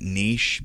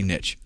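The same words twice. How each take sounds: First: It is said with a long ee and sh. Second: It is said with a short i and tch. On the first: This is the French way the word is supposed to sound. "I tried to start pronouncing that niche because I think it's a French word" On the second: This is how the speaker, from the South, says it. "I'm from the South, and I can't make myself do it. So I say niche"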